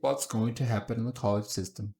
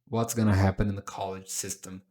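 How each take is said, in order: First: Going to is said as two separate words. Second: Going to is run together quickly as gonna. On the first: "Também pode ser what's going to happen" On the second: "Quando eu pego going to e conecto, vira gonna na pronúncia... tem que falar rápido"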